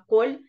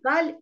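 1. Гласный в слове — огубленное 'o'. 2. Гласный в слове — открытое 'a'. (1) "а коль" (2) "не каль"

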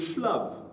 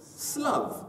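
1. Le mot commence par un son 'sh'. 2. Le mot commence par un son 's'. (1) "si c'est écrit avec un shin, on pourrait dire shlav" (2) "on le prononce avec un samer slav"

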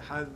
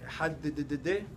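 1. המילה נגמרת נקי על ה-d. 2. ה-d האחרונה חוזרת ומוארכת. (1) "לא יוסיף שום תוספת על אחד" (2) "זה הוסיף בקריאת שמע מאותיות שלא צריך להוסיף"

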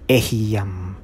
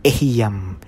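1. Nagsisimula ito sa 'eh', binibigkas na 'eh-hee-yam'. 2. Nagsisimula ito sa 'eh', binibigkas na 'eh-hee-yam'.

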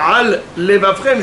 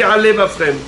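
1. Deux sons L séparent les deux mots. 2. Un seul son L relie les deux mots. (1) "Au lieu de dire alevafrem" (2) "j'ai dit alevafrem. Un seul lamed et j'ai dit les deux mots"

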